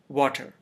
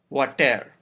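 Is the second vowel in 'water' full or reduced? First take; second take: reduced; full. First: The second syllable has a reduced schwa vowel. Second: The second syllable has a full, stressed-like vowel. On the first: The speaker calls it right. "It is water" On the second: The speaker calls it wrong. "If the schwa sound were not there"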